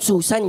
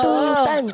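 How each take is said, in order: First: The name begins with an s sound. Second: The name begins with a t sound. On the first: "yung Susan" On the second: "letter T yung ginagawa ko dyan kasi bulol ako sa S"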